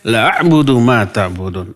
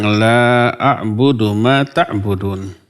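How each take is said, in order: First: The vowel in the first word is short. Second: The vowel in the first word is long. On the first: I truly will worship what you worship. The speaker calls it wrong. "Nah ini la-nya dibaca pendek" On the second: I will not worship what you worship. The speaker calls it right. "Harusnya la-nya panjang"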